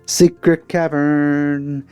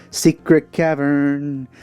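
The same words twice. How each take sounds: The two takes are said the same way.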